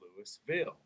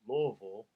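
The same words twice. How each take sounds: First: The first syllable sounds like lewis. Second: The first syllable is a reduced luh sound. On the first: The speaker is an outsider. "that is a dead wrong" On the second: The speaker is a local native. "natives with a little country twang in it"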